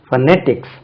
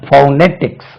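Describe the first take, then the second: First: The first syllable has a short weak vowel. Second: The first syllable has a full 'oh' vowel. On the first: "ஒன்று வந்து ஃபனெட்டிக்ஸ், stress lies on the second syllable" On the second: "you can add this sound fow"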